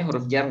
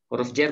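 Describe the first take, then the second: First: A vowel in "jar": huruf "jar". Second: E vowel in "jar": huruf "jer"; jar read as "jer". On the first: Teacher allows both readings, "jar" said with a. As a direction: say "jar" with an open a, not "jer". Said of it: "nggak masalah". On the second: Teacher allows both readings, "jar" said as "jer". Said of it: "Dua-duanya boleh". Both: Shown as a demonstration.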